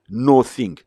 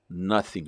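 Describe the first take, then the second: First: The word is split into two separate parts. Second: The word is said smoothly as one unit.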